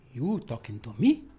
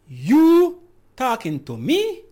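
First: Low gangster challenge rising only on "me"; cool gangster line, jumping up at the end. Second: Long loud YOU swooping high, slow question; slow, high, loud challenge leaning hard on YOU; stress on YOU. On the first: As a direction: ask it like a movie gangster. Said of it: "that's like a gangster one". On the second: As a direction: stretch YOU upward, then rise sharply on "me". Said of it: "depends on where you put the emphasis". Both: Shown as a demonstration.

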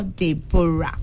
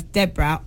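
First: "Deborah" as deh-BO-ra, three syllables; second pronunciation of Deborah. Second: "Deborah" as DEB-ra, two syllables; first pronunciation of Deborah. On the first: Host checking a caller's name, "Deborah" as three-syllable deh-BO-ra. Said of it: "pronounced as Deborah or Deborah". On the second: Host checking a caller's name, "Deborah" as two-syllable DEB-ra. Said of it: "is your name pronounced as". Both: Shown as a demonstration.

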